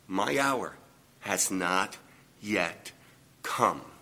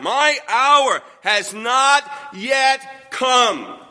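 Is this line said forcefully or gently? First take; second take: gently; forcefully. First: It is said gently and sweetly. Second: It is said forcefully, with lots of energy. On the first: "He said it graciously, he said it sweetly" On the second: "with all the energy I've just said it"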